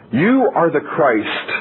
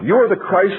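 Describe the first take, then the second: First: "You" drawn out slow and weighty, falling at "Christ"; stress on you. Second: "are" lifted higher and leaned on; stress on are. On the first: Preacher slowly quoting Peter's confession to the congregation. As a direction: linger on "You", slow and deliberate. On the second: Preacher repeating Peter's words to drive home the confession. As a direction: hit "are" up high, affirming it. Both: Shown as a demonstration.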